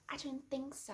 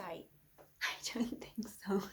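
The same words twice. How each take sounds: First: Said in the usual way. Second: Slow breathy whisper, drawn out; menacing whisper. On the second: Acted. Taunting the co-host in a slow menacing whisper. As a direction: lean in and breathe the threat slowly. Threatening to stab Devon.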